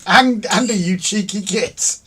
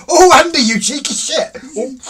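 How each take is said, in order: First: Loud but controlled mock reproach; raised-voice playful telling-off; toned-down exclamation. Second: Very loud, high involuntary outburst; startled, high-pitched shout; shocked reaction. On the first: Shown as a demonstration. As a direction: repeat it slower, drawing out the insult. Repeats outburst with milder word. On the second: Real, not acted. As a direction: blurt it out at full volume. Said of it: "That was a reaction".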